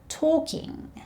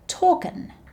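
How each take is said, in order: First: The ending is a full 'ing' sound. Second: The ending is a shortened 'in' sound.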